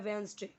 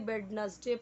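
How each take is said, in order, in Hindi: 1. बीच की d ध्वनि नहीं बोली जाती। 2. बीच की d ध्वनि बोली जाती है। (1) "करेक्ट प्रोनाउंसिएशन क्या है?" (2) "बहुत लोग इसे वेडनसडे पढ़ेंगे"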